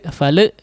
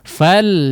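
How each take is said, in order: First: The final lam is bounced with an extra vowel. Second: The final lam stops cleanly without any bounce. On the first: The speaker calls it wrong. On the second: The speaker calls it right.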